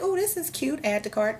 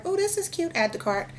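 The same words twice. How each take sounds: First: Much higher, delighted squeal on "Oh, this is cute"; gushing shopper. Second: Even higher, delighted squeal on "Oh, this is cute"; gushing shopper again. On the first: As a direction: coo over a cute item, then click add. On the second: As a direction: another impulse buy, squealed. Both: Retold or imitated. Imitating herself shopping online.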